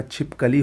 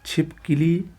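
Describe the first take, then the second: First: छिपकली said "chhip-ka-lee"; a schwa after the k in छिपकली; correct pronunciation. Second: छिपकली said "chhip-ki-lee"; wrong pronunciation. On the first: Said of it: "छिपकली होता है". (छिपकली में साफ़ "क") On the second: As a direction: put an i after the k in छिपकली. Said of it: "का छिपकली होता है". (छिपकली को "छिपकिली" बोलें) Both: Shown as a demonstration.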